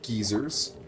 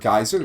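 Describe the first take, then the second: First: It is said the British way, like geezers. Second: It is said in the speaker's usual American way.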